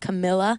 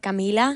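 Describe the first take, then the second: First: The name is said with an American pronunciation. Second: The name is said with a Spanish pronunciation. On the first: "in like American kind of dialect they say it as Camilla" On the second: "in Spanish you pronounce it Camila"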